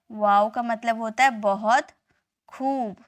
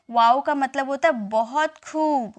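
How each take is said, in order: First: A hushed, breathy teaching whisper; whispered repeat. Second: Said in the usual way. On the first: Shown as a demonstration. Teacher repeating wow's meaning to students, whispered.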